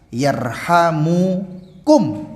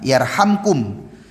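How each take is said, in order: First: An u vowel comes between the m and k. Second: The m goes straight into the k. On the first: It is a prayer: may they have mercy on you. "kalau mimnya itu diberi dhammah, rofa" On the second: It states a result of the command: you will be shown mercy. "Jazam itu mimnya itu disukunkan"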